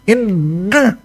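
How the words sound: The nose is held shut, blocking nasal sound.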